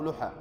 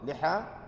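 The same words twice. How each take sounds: First: The first vowel is u. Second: The first vowel is i. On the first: "بالضم" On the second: "بالكسر"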